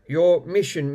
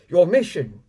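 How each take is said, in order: First: It is read in an ordinary speaking voice. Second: It is read in a dramatic spy-movie voice.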